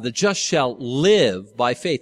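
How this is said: The stress is on the word live.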